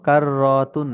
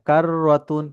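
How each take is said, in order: First: The vowel after the r is drawn out long. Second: The vowel after the r is kept short. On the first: The speaker calls it wrong. "না" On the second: The speaker calls it right. "রতে টান নেই কিন্তু"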